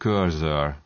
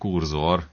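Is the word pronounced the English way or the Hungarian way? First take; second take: English; Hungarian. First: It is pronounced roughly the English way. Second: It is pronounced the Hungarian way, as kurzor. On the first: "Ez az angolban egy cursor ejtést hez hasonlít körülbelül" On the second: "így szoktuk nevezni"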